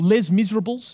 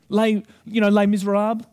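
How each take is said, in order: First: The title is pronounced in an Australian way. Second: The title is pronounced in a French way.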